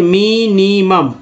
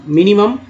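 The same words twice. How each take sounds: First: "minimum" stretched as mi-ni-mum; slow syllable-by-syllable. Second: Said in the usual way. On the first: Shown as a demonstration. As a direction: sound out "minimum" slowly, part by part. ("Minimum" को तोड़कर धीरे पढ़ें) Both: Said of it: "इसको धीरे धीरे पढ़ते हैं".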